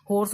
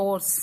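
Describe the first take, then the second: First: हॉर्स with a sounded h at the start; H pronounced. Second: हॉर्स said as "ors", with no h; silent H. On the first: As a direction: begin हॉर्स on an audible h. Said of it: "उसको बोलते हैं". (हॉर्स, शुरू में 'ह' बोलकर) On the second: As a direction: drop the h and start हॉर्स on the vowel. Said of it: "उसको बोलते हैं हॉर्स". (हॉर्स को 'ऑर्स' बोलें, 'ह' चुप) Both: Shown as a demonstration.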